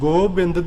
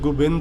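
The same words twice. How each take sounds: First: The first vowel sounds like o. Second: The first vowel sounds like u. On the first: The speaker calls it wrong. "ਗੋਬਿੰਦ ਦੀ ਬਜਾਏ" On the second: The speaker calls it right. "ਇਹਦੀ ਇੱਕ ਮਾਤਰਾ ਘੱਟ ਕਰਕੇ ਗੋਬਿੰਦ ਉਚਾਰਨ ਹੈ"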